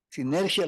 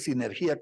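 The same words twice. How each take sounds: First: The stress is not on the gi syllable. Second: The stress is on the gi syllable. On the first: "lo dicen en algunos países" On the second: "con tilde lo dicen en otros"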